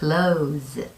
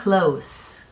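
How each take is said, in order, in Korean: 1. 마지막 자음은 윙 하고 울리는 z 소리입니다. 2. 마지막 자음은 쉿 하고 새는 s 소리입니다. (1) "닫다 라는 뜻으로 쓰일 때에는 close" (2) "가까운, 친밀한 이라는 뜻으로 쓰일 때에는 close"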